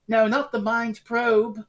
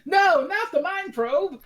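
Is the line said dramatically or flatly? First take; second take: flatly; dramatically. First: It is said flatly, with poor delivery. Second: It is said with dramatic horror.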